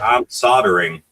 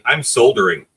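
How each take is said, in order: First: The L sound in soldering is silent. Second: The L sound in soldering is pronounced. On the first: It sounds too close to an indecent word. The speaker calls it wrong. "it sounds too close to sodomy to me" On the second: The speaker sounds civilized. The speaker calls it right. "you sound civilized"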